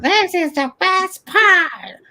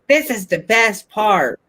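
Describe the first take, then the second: First: It is said in a high, nasal voice. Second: It is said in a normal voice.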